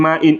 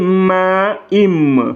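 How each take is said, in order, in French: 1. La fin est un son n clair. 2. La fin se fond dans un son m. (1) "Il ne faut pas dire ma, in avec le hamza" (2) "C'est comme si vous anticipez l'autre M"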